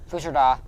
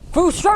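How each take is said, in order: First: It is said at a normal volume. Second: It is yelled loudly, like a game shout.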